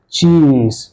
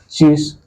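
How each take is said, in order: First: The vowel is held long. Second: The vowel is cut short. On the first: The speaker calls it right. "es una E larga" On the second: The speaker calls it wrong. "decía cheese y no me entendían"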